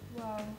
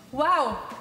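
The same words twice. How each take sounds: First: It sounds sad. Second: It sounds angry.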